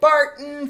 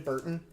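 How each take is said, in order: First: The first syllable sounds like 'Bart'. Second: The first syllable sounds like 'Burt'. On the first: "Bart. Bart" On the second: "I say Burton, like Tim Burton, for some reason"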